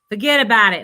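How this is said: It is said in a put-on New York accent.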